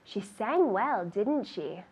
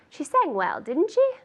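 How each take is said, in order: First: The voice falls at the end of the tag. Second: The voice rises at the end of the tag. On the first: The speaker already knows the answer and is not asking. "So that intonation goes down" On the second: The speaker does not know the answer and is really asking. "So it's a true question"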